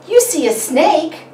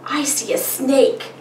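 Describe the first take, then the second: First: High, louder impressed question; amazed parent echo. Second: Lightly voiced child, higher and slow; a hint of a little kid answering; child's answer. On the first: Parent repeating a child's answer back, amazed. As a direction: echo the child with big wonder. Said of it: "And you would say". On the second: Child answering the parent's picture question, lightly childlike. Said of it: "The child would say". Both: Shown as a demonstration.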